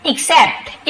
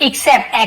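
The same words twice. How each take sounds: First: Except said with a clear ik- start and crisp final t; except, not accept; careful pronunciation. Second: Said in the usual way. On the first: Shown as a demonstration. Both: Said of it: "accept नहीं पढ़ेंगे".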